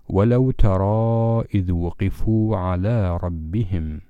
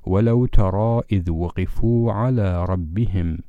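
First: The vowel in ترى is held for a long time. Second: The vowel in ترى is held for a short time. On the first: "وبإمكاننا في الوصل أن نمد الألف مدا طويلا" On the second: "وفي الوصل أيضا تمد مدا طبيعيا هكذا"

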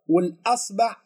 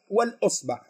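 First: The glottal stop is followed by the vowel a. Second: The glottal stop is followed by the vowel i. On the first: "فتح الهمزة" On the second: "كسر الهمزة"

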